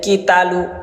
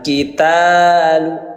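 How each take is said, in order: First: The vowel after the t is cut short. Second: The vowel after the t is held long. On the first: The speaker calls it wrong. "Jangan dibaca" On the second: The speaker calls it right. "Ta panjang"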